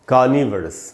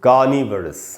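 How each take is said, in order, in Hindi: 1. 'niv' के बाद का स्वर हल्का 'uh' है। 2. 'niv' के बाद का स्वर हल्का 'uh' है।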